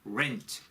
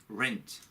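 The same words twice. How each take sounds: No difference in how they are said.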